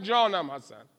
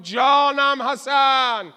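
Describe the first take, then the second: First: Said in the usual way. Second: Loud, very slow call, stretching جانم; drawn-out loud cry. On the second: Acted. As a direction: cry جانم حسن out long and loud as a battle praise. (ندای بلند و کشیده «جانم حسن»)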